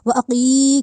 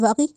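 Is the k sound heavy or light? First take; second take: heavy; light. First: The k sound is heavy and the vowel long. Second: The k sound is light and the vowel short. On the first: The speaker calls it right. "एक तो इसको मोटा किया, दूसरा ... लंबा करके पढ़ा" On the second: The speaker calls it wrong. "नहीं कहा"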